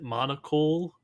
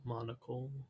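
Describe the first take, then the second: First: The last syllable is stressed, like coal. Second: The last syllable is weak and reduced.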